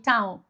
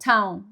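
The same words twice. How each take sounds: No difference in how they are said.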